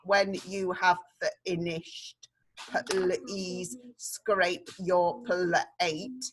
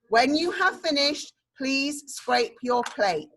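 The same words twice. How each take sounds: First: It is read in a flat, robotic voice. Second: It is read in a natural speaking voice. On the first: The speaker calls it wrong. "not a robot voice. Not" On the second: The speaker calls it right. "We need to speak it like a real sentence"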